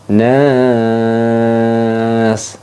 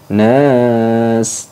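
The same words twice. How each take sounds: First: The vowel is held for three beats. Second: The vowel is held for one beat. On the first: "boleh tiga alif" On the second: "boleh dibaca panjang satu alif"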